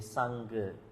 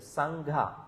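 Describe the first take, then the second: First: The g is plain, without any breath. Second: The g is followed by a breathy h. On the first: It means a bond or attachment. The speaker calls it wrong. "another Pali word called S A N G A" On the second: It means the community. The speaker calls it right. "There is a, an aspirate"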